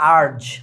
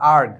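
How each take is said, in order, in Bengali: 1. শব্দটা নরম j শব্দে শেষ হয়। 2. শব্দটা hard g শব্দে শেষ হয়। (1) "অনেক অশিক্ষিত গরুরা কয় আর্জ" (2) "আর্জ না আর্গ"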